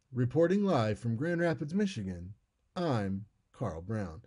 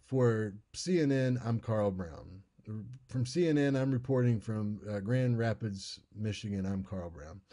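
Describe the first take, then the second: First: News sign-off. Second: Said in the usual way. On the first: Shown as a demonstration. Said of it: "Instead, it would be". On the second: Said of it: "They don't say".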